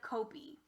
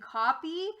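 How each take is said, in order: First: The first vowel is long, as in 'go'. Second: The first vowel is short, as in 'hot'. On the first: The speaker calls it wrong. "usually when we have a vowel at the end of a syllable, it's usually long" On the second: The speaker calls it right. "it ends up being copy"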